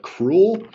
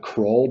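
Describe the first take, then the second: First: It is said like the word 'cruel'. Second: It is said as one syllable, like 'Kroll'. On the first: "but Cruel because of all the stuns" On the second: "not uh, Kroll"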